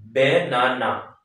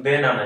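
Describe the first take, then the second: First: বেনানা in three slow beats, বে-না-না; teacher slowly sounding out বেনানা; syllable by syllable. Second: Said in the usual way. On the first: Shown as a demonstration. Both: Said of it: "তিনটা".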